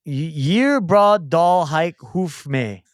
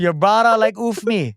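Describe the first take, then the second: First: Slow, halting Viking-sounding syllables; accidental Viking. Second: "brada like oof me" run together naturally, higher pitched; puzzle solved. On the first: Player sounding out a word puzzle, accidentally Viking. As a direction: sound out each odd word, unintentionally Viking. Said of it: "Think I sound Viking". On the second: Player finally gets the hard puzzle, "Your brada like oof me" said fluently. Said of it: "Wow, that was a hard one". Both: Real, not acted.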